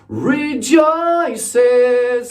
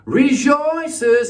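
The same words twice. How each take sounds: First: The word is said with a plain English vowel. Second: The word is said with a French-sounding vowel. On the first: The speaker calls it right. "instead of rejoices" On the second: The speaker calls it wrong. "he said rejoices"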